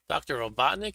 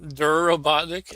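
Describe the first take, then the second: First: The title is said in full as doctor. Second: The title is clipped to a single syllable, der.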